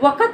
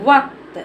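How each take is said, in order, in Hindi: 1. k के बाद एक छोटा स्वर सुनाई देता है। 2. k, t से बिना किसी स्वर के जुड़ता है। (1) "वक़्त नहीं पढ़ेंगे" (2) "आया वक्त"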